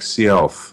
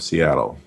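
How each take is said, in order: First: It sounds closer to the leader's original name. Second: It sounds like the usual modern city name. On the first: This is closer to how the leader's name was said. The speaker calls it right. "it's like more like Seattle" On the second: This is how the city name is usually said today. The speaker calls it wrong. "instead of Seattle"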